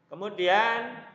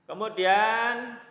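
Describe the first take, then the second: The two takes are said the same way.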